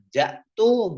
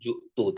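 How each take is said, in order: First: The first vowel is an a sound. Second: The first vowel is a u sound. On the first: "bukan ja'tu" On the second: "bukan ju'tu"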